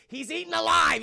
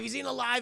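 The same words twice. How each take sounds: First: Emphatic. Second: Said in the usual way. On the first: Real, not acted. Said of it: "French kid is mauled to death".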